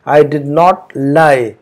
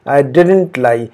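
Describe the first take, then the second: First: Both words 'did not' are said in full. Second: 'Did not' is contracted into one word, 'didn't'. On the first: "आप कहेंगे I डिड नॉट" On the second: "बातचीत में हम I डिड नॉट नहीं कहते, हम कहते हैं आई डिडंट लाई"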